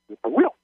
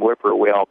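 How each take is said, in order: First: The stress is on the last syllable. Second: The stress is not on the last syllable. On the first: "They put the accent on the third syllable" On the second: "the way I pronounced it"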